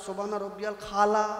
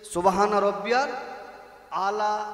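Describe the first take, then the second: First: The last word starts with a 'kh' sound. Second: The last word starts with a plain vowel. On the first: The speaker calls it wrong. "দাঁত ভাঙা পাঁচ দিয়ে বার হয়ে যাচ্ছে" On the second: The speaker calls it right. "শেষদায় বলতে হয় তো"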